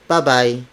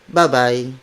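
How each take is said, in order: The two takes are said the same way.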